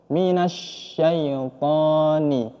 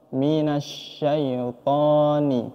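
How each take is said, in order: Both takes have the same delivery.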